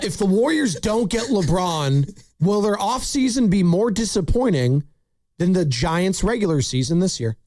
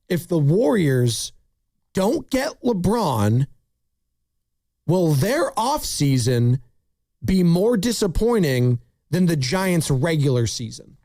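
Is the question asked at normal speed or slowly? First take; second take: normal speed; slowly. First: It is asked at normal speed. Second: It is asked slowly.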